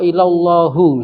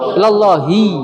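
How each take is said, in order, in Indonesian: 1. Kata ini berakhir dengan vokal 'u'. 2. Kata ini berakhir dengan vokal 'i'. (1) "setelah harfu jar kok dhammah"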